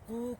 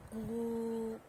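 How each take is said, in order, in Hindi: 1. स्वर थोड़ा लंबा खींचा गया है। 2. स्वर बहुत लंबा खींचकर बोला गया है। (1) "दीर्घ" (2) "प्लुत"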